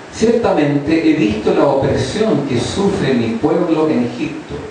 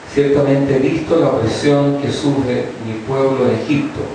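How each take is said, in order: No difference in how they are said.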